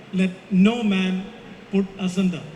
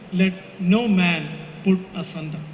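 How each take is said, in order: Both takes have the same delivery.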